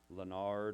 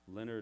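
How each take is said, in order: First: The name is said with French pronunciation. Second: The name is said with English pronunciation. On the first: "It's different in French, Leonard or something" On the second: "he just said to pronounce it Leonard"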